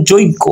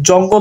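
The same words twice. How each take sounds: First: Second যজ্ঞ as joiggo; inserted short i. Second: Said in the usual way. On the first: Shown as a demonstration. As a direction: put an i glide before gg in যজ্ঞ. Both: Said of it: "এই যে রস্বইকার চলে এসেছে".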